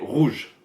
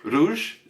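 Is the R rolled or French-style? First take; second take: French-style; rolled. First: The R is a French throaty R. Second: The R is rolled with the tongue tip. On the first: The speaker calls it right. "Donc c'est rouge" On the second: The speaker calls it wrong. "ils peuvent faire un R roulé ... ça non, c'est pas ça"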